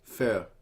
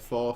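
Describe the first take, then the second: First: The vowel sounds like the one in fur. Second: The vowel sounds like the one in four. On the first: The speaker calls it right. "that's closer" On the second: The speaker calls it wrong. "I can't say the word fjord because it always sounds off"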